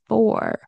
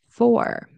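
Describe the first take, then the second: First: The word sounds like 'four', with a full vowel. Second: The word sounds like 'four', with a full vowel.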